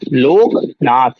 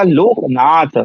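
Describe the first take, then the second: First: The stress is on the middle syllable ka. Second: The stress is on the last syllable tha. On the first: It means king. "जैसे का पे Loknath, तो क्या हो गया? राजा।" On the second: It means beggar. "अगर था पे उदात्त किया तो भिखारी।"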